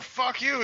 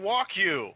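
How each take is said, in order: First: "fuck you" sung high like the lyric; pitched-up "fuck you"; misheard lyric. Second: "walk you" sung high as the real words; pitched-up "walk you"; actual lyric. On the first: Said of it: "He's not saying". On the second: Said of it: "he's saying". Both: Shown as a demonstration.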